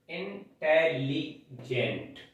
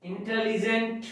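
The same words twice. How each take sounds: First: intelligent slowly, every syllable spaced; syllable demo. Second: Said in the usual way. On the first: Shown as a demonstration. (Intelligent धीरे-धीरे अक्षर गिनते हुए) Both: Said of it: "तीन syllables का word है".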